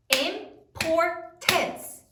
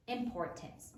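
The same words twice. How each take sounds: First: "Importance" drawn out syllable by syllable; slow syllables. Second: Said in the usual way. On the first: Shown as a demonstration. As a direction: stretch out "Importance" so each syllable shows. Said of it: "How many syllables". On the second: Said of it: "minor importance".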